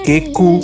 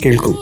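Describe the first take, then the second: First: The word is said without its 'l' sound. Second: The word is said with its 'l' sound. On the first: The speaker calls it wrong. "കേക്കു എന്നുള്ളത് ആണ് ഇത് വന്നത്" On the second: The speaker calls it right. "അത് പ്രൊണൗൺസിയേഷന്റെ ഒരു സംഭവമാണ്"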